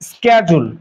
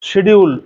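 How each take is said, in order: First: It starts with 'sk' and has a 'j' sound. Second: It starts with 'sh' and has a 'd' sound. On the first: American people say it this way. "আমেরিকানরা আবার এটাকে বলে স্ক্যাজুল" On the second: People in Bangladesh usually say it this way. "আসলে এটা শিডিউল না"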